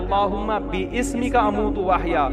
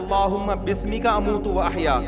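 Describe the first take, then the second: First: The word is said as bi-ismika, with an extra vowel. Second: The word is said as bismika, no extra vowel. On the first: The speaker calls it wrong. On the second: The speaker calls it right.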